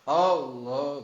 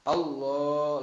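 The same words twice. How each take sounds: First: The opening 'A' sound is held long. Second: The 'la' sound is held long. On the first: The speaker calls it wrong. "itu enggak boleh, enggak sah" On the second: The speaker calls it right. "lamnya yang panjang bukan alif"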